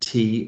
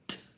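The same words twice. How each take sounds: First: It is said as the letter's name. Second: It is said as the letter's short sound. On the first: The speaker calls it wrong. "T is not sounded T" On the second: The speaker calls it right. "it's sounded T"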